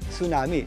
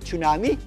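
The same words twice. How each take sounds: First: The T sound at the start is silent. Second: The T sound at the start is pronounced. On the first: The speaker calls it right. "Silent T po yan ha" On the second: The speaker calls it wrong. "hindi po yan tsunami"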